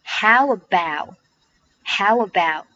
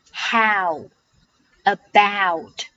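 First: "how about" run together with no break, final t dropped; "how about" as one joined phrase, t left silent; linked pronunciation. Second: "how" and "about" said apart, with a pause between; each of "how" and "about" alone, full open ow; careful unlinked "how", then "about"; separate full words. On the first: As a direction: slide "how" straight into "about" through a w. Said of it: "连读。". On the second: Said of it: "要饱满一点，". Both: Shown as a demonstration.

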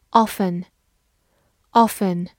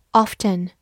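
First: "often" with a silent t; "often" with the f running straight into en; first pronunciation of often. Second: "often" with the t sounded; "often" with a clear t after the f; alternative pronunciation of often. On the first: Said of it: "或者也可以读作often". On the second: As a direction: say "often" as OFF-ten. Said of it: "或者也可以读作". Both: Shown as a demonstration.

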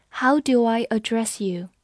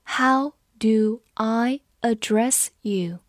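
First: Said in the usual way. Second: Word by word, with gaps between words; slow read-along. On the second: Shown as a demonstration. Teacher leads students through the sentence, slow and separated. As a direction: read it slowly for learners to follow. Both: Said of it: "跟着我慢读一遍".

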